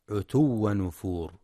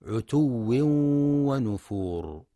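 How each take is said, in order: First: عتو ونفور with a single و and no nasal merge; wrong light w. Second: عتو ونفور with the و doubled and a nasal ن merged into it. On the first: Teacher shows the wrong reading without doubling or nasal. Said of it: "فلا يقرأ". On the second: Teacher shows the correct doubled و with nasal merge. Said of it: "للواو المشددة وللإدغام مع الغنة". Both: Shown as a demonstration.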